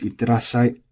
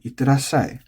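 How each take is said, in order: First: Itterashai read as on paper; the dictionary form itterashai; textbook pitch. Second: Itterashai with power on the last syllable, falling; accented end. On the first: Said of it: "on paper it's". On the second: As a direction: itterashai as people really say it, ending accented. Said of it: "you're gonna hear a lot of people saying". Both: Shown as a demonstration.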